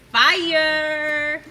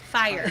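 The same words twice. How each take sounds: First: It is said with lots of energy. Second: It is said in a toned-down way.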